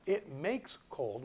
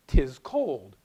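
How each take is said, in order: First: It makes cold, slow and deliberate; mock literal translation; slow literal rendering. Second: Said in the usual way. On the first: Shown as a demonstration. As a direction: drag it out as a clumsy literal translation. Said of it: "which is a literal translation". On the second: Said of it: "I say".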